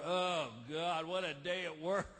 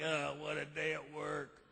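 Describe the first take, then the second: First: Low, worn-out sigh of a line; weary complaint. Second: Low, slow weary groan; beat down. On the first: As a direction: come home tired and grumbling. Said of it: "you walk in the front door". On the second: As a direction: drag it out, worn down from work. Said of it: "just beat down like". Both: Retold or imitated.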